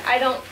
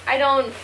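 The two takes are said the same way.

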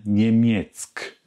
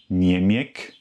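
First: Niemiec said slowly with a clear ts, nemjets; slow and careful, sound the ts; right niemiec. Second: Niemiec said without the ts sound, nemek; wrong niemiec. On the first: Teacher shows learners the right Polish ending. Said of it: "sondern Niemiec". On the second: Teacher shows learners the wrong Polish ending. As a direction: clip Niemiec, drop the c sound. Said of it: "Also kein Niemiec". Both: Shown as a demonstration.

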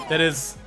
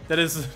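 The two takes are said the same way.

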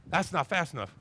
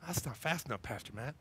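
First: Said in the usual way. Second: "That's not fast enough" pulled down low and soft; quieter whine. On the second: Acted. Shopper sulking to Pastor Matt, softer and lower. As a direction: sulk it under your breath.

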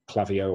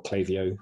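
First: Klaviyo with a short flat A, KLAV-ee-oh; alternative pronunciation. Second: Klaviyo with a long A, KLAY-vee-oh; alternative pronunciation. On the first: Presenter offering one pronunciation of Klaviyo, KLAV-ee-oh. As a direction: say Klaviyo with first syllable rhyming with "have". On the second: Presenter offering the other pronunciation of Klaviyo, KLAY-vee-oh. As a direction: say Klaviyo with first syllable like "clay". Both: Shown as a demonstration. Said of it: "however you wanna pronounce it".

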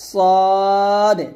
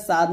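First: সদে with heavy s, long rounded "aw", bounced d; full-mouthed, stretched সদে; correct Arabic sad. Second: সাদ with a thin open "aa"; wrong sad. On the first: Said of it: "এটা হবে সদে". (সদে মোটা করে টেনে) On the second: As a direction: say সাদ as spelt, plain s. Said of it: "আসলে এটা সাদ না". (সাদ, সাধারণ পাতলা উচ্চারণে) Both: Shown as a demonstration.

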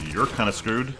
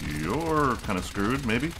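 First: "You're kinda screwed" with a lift on "You're"; teasing. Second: "You're kinda screwed" drawn out slowly, rising; slow taunt. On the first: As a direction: tease the enemy lightly. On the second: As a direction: stretch every word to rub it in. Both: Real, not acted. Taunts trapped enemy.

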